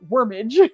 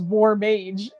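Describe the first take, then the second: First: The first part sounds like the word 'worm'. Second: The first part sounds like the word 'war'. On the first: The speaker calls it wrong. "not Wormage" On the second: The speaker calls it right. "oh, it was War Mage"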